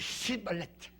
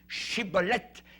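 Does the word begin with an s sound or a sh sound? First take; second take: s; sh. First: The word begins with an s sound. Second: The word begins with a sh sound. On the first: The speaker calls it wrong. "Ils disaient cibolette" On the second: The speaker calls it right. "Ils n'arrivaient pas à dire, voyez, le, le chi"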